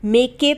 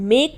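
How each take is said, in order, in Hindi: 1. आखिरी k के बाद एक अतिरिक्त स्वर ध्वनि आती है। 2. यह k पर खत्म होता है, उसके बाद कोई स्वर नहीं। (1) "मेक के तो नहीं बोल रहे ना, तो यहाँ पर ई साइलेंट रहेगा" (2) "हम मेक बोलते हैं।"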